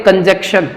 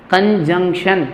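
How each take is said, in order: First: कंजक्शन without the second nasal, "kanjekshan"; mispronounced by pupils. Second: कंजंक्शन with nasal "jung", "kan-jung-shan"; correct pronunciation. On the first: Retold or imitated. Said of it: "कई बच्चे इसका pronunciation गलत पढ़ते हैं". (कंजक्शन, बीच में न की आवाज़ गायब) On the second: Shown as a demonstration. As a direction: sound the middle N in कंजंक्शन. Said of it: "एन का साउंड आएगा यहाँ पर". (कंजंक्शन में न की आवाज़)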